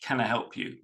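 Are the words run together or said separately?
together. The words run together smoothly.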